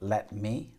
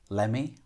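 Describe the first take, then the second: First: The words are said fully and separately. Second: The words are reduced and run together.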